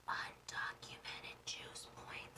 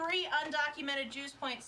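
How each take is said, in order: First: Hushed secret whisper. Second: Louder. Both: Real, not acted. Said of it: "I should say that a little bit louder".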